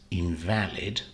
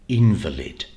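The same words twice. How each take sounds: First: The stress is on the middle syllable. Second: The stress is on the first syllable. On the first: It is an adjective. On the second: It is a noun.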